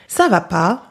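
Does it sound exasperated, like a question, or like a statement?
exasperated. It sounds exasperated, like "are you crazy?"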